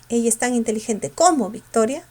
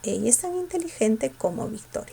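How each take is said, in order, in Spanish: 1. Se dice con entonación de pregunta. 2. Se dice con entonación de afirmación simple.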